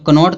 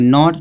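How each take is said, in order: First: The word starts with a k sound. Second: The word starts with an n sound. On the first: The speaker calls it wrong. "कनॉट तो नहीं पढ़ा जाएगा" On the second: The speaker calls it right. "इसको पढ़ेंगे नॉट"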